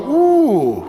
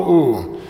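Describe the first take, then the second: First: High, drawn-out ooh of wonder; a kid pretending to be dazzled; mock impressed ooh. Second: Said in the usual way. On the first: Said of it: "And we'd all go". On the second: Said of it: "We all go".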